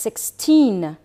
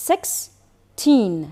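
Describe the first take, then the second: First: Said in the usual way. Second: Put-on "sixteen" broken in two with a pause before "teen"; "sixteen" syllable by syllable for learners; split into syllables. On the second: Shown as a demonstration. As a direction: say "sixteen" as six... teen, each part held apart.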